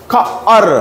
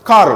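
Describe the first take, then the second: First: খা, pause, আর, as two separate pieces; sounded out. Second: খার joined as one syllable; blended word. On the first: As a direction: split খা from আর like a phonics teacher. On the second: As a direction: say খার whole, ending like the letter R's name. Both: Shown as a demonstration. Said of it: "ঠিক আর এর মতনই হবে সাউন্ডটা".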